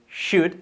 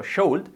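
First: "should" with no L, like "shood"; silent L. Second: "should" with the L sounded, "shold"; spelling pronunciation. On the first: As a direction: say "should" higher, dropping the L entirely. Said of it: "la L no se pronuncia". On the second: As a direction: read "should" as written, L audible. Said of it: "escrito should". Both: Shown as a demonstration.

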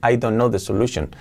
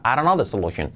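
First: "I don't know the solution" with separate words; textbook English. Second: "I don't know the solution" slurred into "aronno the solution"; native connected speech. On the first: Teacher shows what is in your head, textbook "I don't know the solution". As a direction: sound out "don't know" in full. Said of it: "en tu cabeza lo reconoces con". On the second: Teacher imitates someone saying it to you, linked "I don't know the solution". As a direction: link every word, drop the t of "don't". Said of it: "alguien te diga". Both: Shown as a demonstration.

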